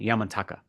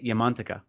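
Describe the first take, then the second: First: The name is said with its common everyday pronunciation. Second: The name is said with its Sanskrit pronunciation. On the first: The speaker calls it wrong. "you're used to hearing Yamantaka, which is not quite correct" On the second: The speaker calls it right. "that's how it should be pronounced in Sanskrit"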